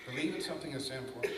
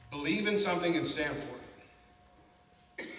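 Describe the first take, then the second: First: Said in the usual way. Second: Slow, every word set apart; slow, weighty quote. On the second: Shown as a demonstration. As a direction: let each word of the quote land slowly. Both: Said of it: "How powerful is that?".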